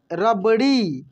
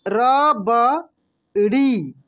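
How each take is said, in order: First: Said in the usual way. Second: rabri stretched very slowly, each syllable drawn out. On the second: Shown as a demonstration. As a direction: spell rabri out slowly for the class. (रबड़ी को धीरे धीरे खींचकर बोलिए) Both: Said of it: "कैसे पढ़ेंगे हम लोग?".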